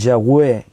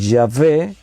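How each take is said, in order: First: The middle consonant is said as a W sound. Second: The middle consonant is said without a W sound. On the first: "hay otros que dicen Yahweh por la W" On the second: "hay gente que dice Yahvé"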